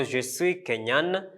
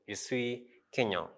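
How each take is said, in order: First: "Kenyan" with the final N clearly sounded and held; feminine Kenyan, N pronounced. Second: "Kenyan" softly, final N left silent; masculine Kenyan, silent N. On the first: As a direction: slowly let "Kenyan" end on a full N. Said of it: "we pronounce the N". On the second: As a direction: end "Kenyan" on an open nasal vowel. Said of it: "we don't pronounce the N". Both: Shown as a demonstration.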